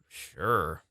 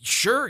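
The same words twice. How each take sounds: First: It sounds reluctant and unwilling. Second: It sounds excited and eager.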